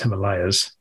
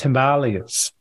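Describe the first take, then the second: First: It uses the familiar Western pronunciation. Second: It uses the less familiar, non-Western pronunciation. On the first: This is how most Westerners say it. The speaker calls it wrong. "Western folk tend to pronounce it as Himalayas" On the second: This is the original, correct form. The speaker calls it right. "that is the correct way to pronounce it"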